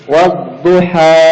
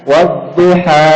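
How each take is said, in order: Both takes have the same delivery.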